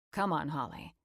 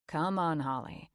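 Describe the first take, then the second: First: Said in the usual way. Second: Warm coaxing push; encouraging. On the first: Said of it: "He cuts off my ramble". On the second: A narrator's reading. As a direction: gently urge her on. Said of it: "he encourages".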